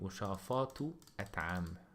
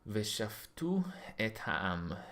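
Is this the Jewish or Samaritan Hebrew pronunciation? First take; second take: Samaritan; Jewish. First: It is said with Samaritan Hebrew pronunciation. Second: It is said with Jewish Hebrew pronunciation. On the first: "in Samaritan Hebrew I would say"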